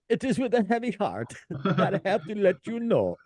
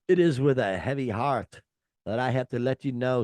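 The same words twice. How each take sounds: First: It is read in a put-on British accent. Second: It is read in a natural, unaffected accent. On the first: "I'll do it in a British accent" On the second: "I wish I could do this in a German accent, but I can't"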